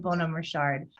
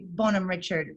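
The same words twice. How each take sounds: First: The name is pronounced the French way. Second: The name is pronounced the English way. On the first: "the French pronunciation" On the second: "in the first phonetics"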